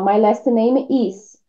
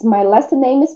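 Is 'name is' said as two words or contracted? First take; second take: two words; contracted. First: Name and is are separate, with a break. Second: Name and is are joined into name's. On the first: "Meio que você dá uma pausa aí na sua fala" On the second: "Se tivesse apóstrofo S, ia tudo de uma vez"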